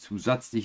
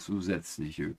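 First: The middle vowel is a plain a sound. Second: The middle vowel is an umlaut ä sound. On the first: The speaker calls it wrong. "Dann sind es nicht zusätzliche" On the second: The speaker calls it right. "Wir sollten doch mal die Umlaute mitsprechen"

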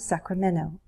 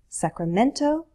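First: The T sound is dropped. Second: The T sound is clearly pronounced. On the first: "We can drop the T in Sacramento" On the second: "Sacramento can become"

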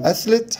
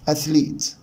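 First: The vowel after the L is short. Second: The vowel after the L is long. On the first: The speaker calls it wrong. "مش هقول أثليت" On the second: The speaker calls it right. "صوت حرف الإي بعد حرف الإل ده لونج إي"

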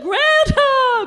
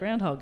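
First: It is said with cheering excitement. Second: It is said with weary disgust. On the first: The animal is celebrated as a star. "everyone goes, "Woo" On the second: The animal is an unwelcome pest. "they'd be like, "Ugh"

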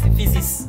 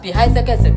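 First: The word is said the usual way, as fizziks. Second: Every letter is sounded out, as pihai sekese. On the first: The speaker calls it wrong. "they say this one is physics" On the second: The speaker calls it right. "I will pronounce this one myself as Pihai Sekese"

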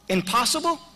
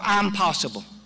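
First: The word begins with a short 'im' sound. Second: The word begins with a long 'I'm' sound. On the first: It cannot be done. "how will you pronounce it?" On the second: The speaker is saying they can do it. "how will you pronounce it?"

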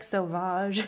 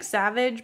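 First: It is said with a French-style pronunciation. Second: It is said like the English word savage. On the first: The speaker calls it right. "it's probably like Sauvage" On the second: The speaker calls it wrong. "It looks like Savage"

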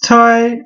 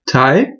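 First: The syllable is said in first tone. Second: The syllable is not said in first tone. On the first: "it's the first tone" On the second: "it would be a Thai, like in Taiwan"

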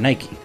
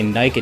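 First: The name ends with a final ee vowel sound. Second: The name ends without a final vowel sound. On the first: The speaker calls it right. "I like calling her Nike" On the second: The speaker calls it wrong. "it feels like I'm missing that E"

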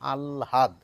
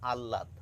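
First: An l followed by a separate h sound. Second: A plain doubled l with no h sound. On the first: "লটিকে আগে নিয়ে যান, হটিকে পরে নিয়ে বলেন আহ্লাদ" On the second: "99% মানুষ বলে থাকেন আহ্লাদ ... আ ল লয়াকার দ"

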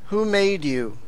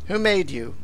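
First: It is spoken at a deliberately slower pace. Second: It is spoken at a normal, quicker pace.

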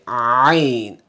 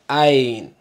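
First: It starts with a tight sound from the throat. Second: It starts as a plain open vowel. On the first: The speaker calls it right. "Say ayn" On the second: The speaker calls it wrong. "don't say ayn. That's gonna be alif"

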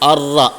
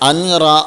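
First: The n merges into a doubled r sound. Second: A clear n sound comes before the r. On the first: The speaker calls it right. "അർറ എന്നാണ് പറഞ്ഞത്" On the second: The speaker calls it wrong. "അൻറ എന്നല്ല പറഞ്ഞത്"

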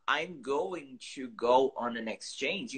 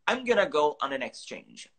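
First: "Going to" is said in full. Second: "Going to" is reduced to "gonna". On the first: "essa forma assim, longa" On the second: "instead of saying going to, I just say gonna"

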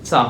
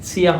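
First: It is said as one merged syllable, cha. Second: It is said as two syllables, chi and ya. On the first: The speaker calls it right. "চা হবে" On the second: The speaker calls it wrong. "এখানে চিয়া হবে না"

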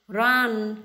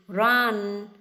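Both takes have the same delivery.

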